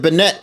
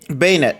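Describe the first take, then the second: First: The first syllable sounds like 'ben'. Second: The first syllable sounds like 'bay'. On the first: The speaker calls it wrong. "I used to always call it Bennett" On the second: The speaker calls it right. "I'm sorry"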